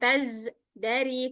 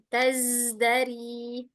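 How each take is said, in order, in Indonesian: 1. Kata itu terpotong dengan jeda singkat. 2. Kata itu mengalir terus tanpa jeda. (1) "tidak dipotong, bukan taz dari" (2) "tidak ada jedanya"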